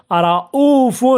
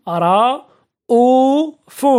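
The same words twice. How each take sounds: First: Said in the usual way. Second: رؤوف very slow, broken into long separate syllables. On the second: Shown as a demonstration. Teacher sounding out an example of hamza, رؤوف syllable by syllable. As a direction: stretch each syllable of رؤوف, pausing between them.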